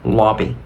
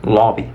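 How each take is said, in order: The two takes are said the same way.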